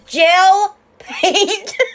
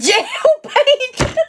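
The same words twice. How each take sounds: First: The first word has a short 'e' vowel. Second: The first word has a long 'a' vowel. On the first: The speaker calls it right. "This is jail paint" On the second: The speaker calls it wrong. "Not jail paint"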